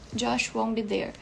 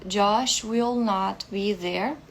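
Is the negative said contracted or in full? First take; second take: contracted; full. First: The negative is contracted to one short word. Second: The negative is said as two full words. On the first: It sounds ordinary and natural. The speaker calls it right. "é muito mais comum usar a contração" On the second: It seems to put extra emphasis on the negation. The speaker calls it wrong. "parece que tá dando uma ênfase para isso"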